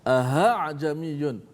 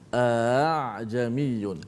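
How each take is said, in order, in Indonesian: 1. Hamzah kedua diganti dengan bunyi h. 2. Hamzah kedua dilunakkan menjadi bunyi vokal. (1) "menukarkan hamzah kedua dengan ha" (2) "yang kedua itu ditashilkan"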